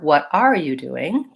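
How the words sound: The stress falls on the word are. "if I were to stress R"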